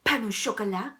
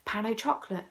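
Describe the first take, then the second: First: "pain au chocolat" the French way, ending sho-ko-LA; French pronunciation. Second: "pain au chocolate" with English CHOC-lit; English pronunciation. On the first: Choosing a pastry name, "pain au chocolat" in French. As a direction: say "pain au chocolat" with silent final t. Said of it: "do I call it a pain au chocolat". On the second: Choosing a pastry name, "pain au chocolate" in English. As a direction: say "pain au chocolate" anglicised, t sounded. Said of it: "or a pain au chocolate". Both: Shown as a demonstration.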